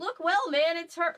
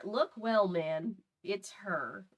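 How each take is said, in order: First: Pitched-up character line; high-pitched take. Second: Low, slowing take. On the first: Reader trying out the officer's line, high-pitched. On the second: Reader redoing the officer's line, low and slower. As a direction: lower voice, slowing and softening. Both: Acted.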